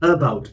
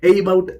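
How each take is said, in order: First: The first vowel is a weak uh sound. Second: The first vowel is an ay sound. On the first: The speaker calls it right. "ഒരു ശ്വാസ സൗണ്ടാണ്" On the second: The speaker calls it wrong. "എയ്ബൌട്ട് എന്നല്ല നമ്മൾ പറയുന്നത്"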